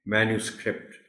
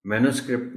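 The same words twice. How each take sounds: First: मैन्युस्क्रिप्ट as MAN-yu-script, softer; मैन्युस्क्रिप्ट with "new" in the middle; clear YU glide. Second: मैन्युस्क्रिप्ट as "mano-script"; मैन्युस्क्रिप्ट with plain "no" in middle, quick; missing Y glide. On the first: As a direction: sound the YU in मैन्युस्क्रिप्ट. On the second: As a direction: say मैन्युस्क्रिप्ट without the YU. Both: Shown as a demonstration. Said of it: "मैनो नहीं है ये".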